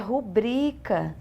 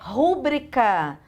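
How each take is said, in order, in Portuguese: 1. A tônica está na penúltima sílaba. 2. A tônica vem antes da penúltima sílaba. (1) "nas palavras paroxítonas" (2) "Não é"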